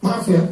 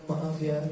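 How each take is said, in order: First: Louder, terse "Maaf ya"; curt hostile apology. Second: Soft, tender "Maaf ya"; gentle apology. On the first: Wife apologizing to husband as a challenge, curt and loud. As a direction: snap "Maaf ya" like picking a fight. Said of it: "ngajak perang namanya". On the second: Preacher showing a gentle apology, soft and tender. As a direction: say "Maaf ya" gently and much softer. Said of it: "lembut kan?". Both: Shown as a demonstration.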